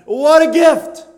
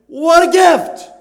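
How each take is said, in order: First: WHAT a gift, what stressed, rising at the end, louder and higher; loud cry of "What a gift" with the stress on What; exclamation. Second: What a GIFT, gift stretched long and falling, much louder and higher; slow, loud cry of "gift" with the stress on gift; exclamation. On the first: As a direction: punch "What" and lift the end. Repeating the exclamation. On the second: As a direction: linger on gift and let it fall. Exclaiming over God's gift. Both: Acted.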